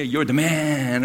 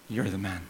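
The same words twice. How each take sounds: First: It is said as cheerful encouragement. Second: It is said as a stern rebuke.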